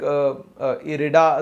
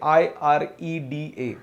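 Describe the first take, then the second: First: The name is said as one word. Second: The name is spelled out letter by letter.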